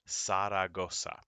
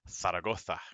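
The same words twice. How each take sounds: First: The Z is sounded like an S. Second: The Z is not sounded like an S. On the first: "The Z in Spanish goes S" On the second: "the people who live there pronounce it Zaragoza"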